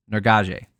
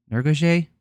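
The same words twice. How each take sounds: First: Nurgaje. said firmly with a falling tune; landing on Nurgaje with a plain fall; settled try. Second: Nurgaje? tried with a questioning rise, high; testing the name Nurgaje with rising tune; unsure try. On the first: Host settling on the fighter's name, firm fall. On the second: Host guessing the fighter's name aloud, questioning rise. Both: Shown as a demonstration. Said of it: "I heard him say it".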